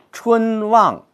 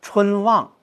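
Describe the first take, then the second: First: 春望 with 春 and 望 equally heavy; 春望两字都重读; both words stressed. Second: 春望 with 春 medium, 望 stronger; light 春, weight on 望; 春望中重格式; stress on 望. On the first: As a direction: hit both 春 and 望 hard. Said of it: "我们不能把春和望都读成重的". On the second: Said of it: "望用比较大的力度". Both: Shown as a demonstration.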